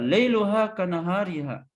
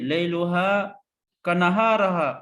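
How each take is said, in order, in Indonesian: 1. Kata terakhir diucapkan dengan vokal 'i': nahariha. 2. Kata terakhir diucapkan dengan vokal 'a': naharaha. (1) "mesti dibaca" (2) "dia baca begini"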